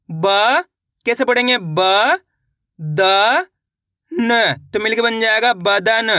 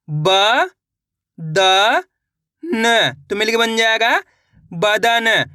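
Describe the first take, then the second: First: ब, द, न each sounded separately, then बदन blended; syllable by syllable. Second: ब, द, न said slowly with pauses, then बदन; syllable by syllable. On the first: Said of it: "अब उच्चारण किस तरीके से करेंगे". (अक्षर अलग अलग बोलकर बदन मिलाना) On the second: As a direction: spell out ब द न, then blend to बदन. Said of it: "एक बार फिर से देखिए". (धीरे धीरे ब द न, फिर बदन) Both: Shown as a demonstration.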